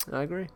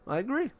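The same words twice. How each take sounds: First: Said in the usual way. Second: High squeaky agree. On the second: Shown as a demonstration. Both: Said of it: "repeated agreement".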